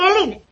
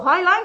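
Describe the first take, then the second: First: The name is read out the Spanish way. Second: The name is pronounced the English way. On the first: "Tú apréndetelo como lo leas" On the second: "que es como se pronuncia"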